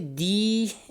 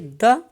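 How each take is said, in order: First: The vowel is long and full. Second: The vowel is a short reduced schwa. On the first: "its syllable is a bit elongated" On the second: "syllable has been reduced"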